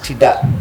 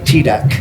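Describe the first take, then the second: First: The final K sound is not clearly released. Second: The final K sound is clearly pronounced. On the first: "whereas Indonesians" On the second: "there's a K at the back"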